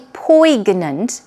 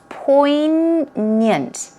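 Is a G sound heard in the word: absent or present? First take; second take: present; absent. First: A G sound is pronounced in the middle. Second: No G sound is pronounced in the middle. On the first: The speaker calls it wrong. "be careful not to say poignant" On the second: The speaker calls it right. "There is no G sound as you see"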